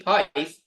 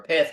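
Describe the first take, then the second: First: Pyth with a long I, like "pie" plus th; first pronunciation of Pyth. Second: Pyth with a short I, like "pith"; alternative pronunciation of Pyth. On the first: Streamer naming the project to viewers, Pyth said with a long "eye". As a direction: say Pyth drawn out, rhyming its start with "pie". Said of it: "or Pyth, however you say it". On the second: Streamer unsure how it is said, offering Pyth as short "pith". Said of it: "however you say it". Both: Shown as a demonstration.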